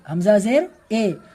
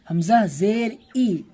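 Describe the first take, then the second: First: The final vowel is an 'ay' sound. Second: The final vowel is a clear 'ee' sound. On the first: The speaker calls it wrong. "तो ये हो जाएगा मजहूल" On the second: The speaker calls it right. "ये जो ई पढ़ रहे हैं ना ये है मारूफ"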